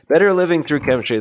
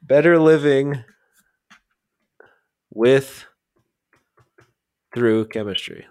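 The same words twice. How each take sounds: First: Fast, loud and higher; brisk title announcement. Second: "Better Living" high and loud, then long pauses; word-by-word, hanging on "with" before "Through"; halting title recall. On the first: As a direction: rattle the title off in one go. Same title rattled off confidently. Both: Real, not acted.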